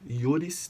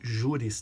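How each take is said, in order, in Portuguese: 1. A palavra começa com som de 'y'. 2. A palavra começa com som de 'zh'. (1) "O J, ele vira I na pronúncia em latim" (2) "eu não li juris tanto"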